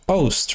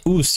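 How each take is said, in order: First: The vowel sounds like the one in 'Yoast'. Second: The vowel does not sound like 'Yoast'. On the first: The speaker calls it right. "Because there are two O's. Oost, like Yoast" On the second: The speaker calls it wrong. "you wouldn't say oost"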